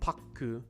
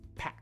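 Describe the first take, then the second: First: An extra vowel is added after the final consonant. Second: The word ends cleanly on the final consonant. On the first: The speaker calls it wrong. "Not paku" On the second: The speaker calls it right.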